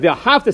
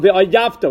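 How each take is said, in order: First: The middle consonant is an h sound. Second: The middle consonant is a y sound. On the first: You shall love. The speaker calls it right. "Instead of V'ahavta" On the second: You shall treat as an enemy. The speaker calls it wrong. "V'ayavta, which sounds terrible"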